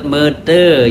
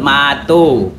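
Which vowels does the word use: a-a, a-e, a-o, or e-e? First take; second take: e-e; a-o. First: The vowels are e then e. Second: The vowels are a then o. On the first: This is the E E dialect form. "E E menyebut mete" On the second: This is the A O dialect form. "A O menyebut mato"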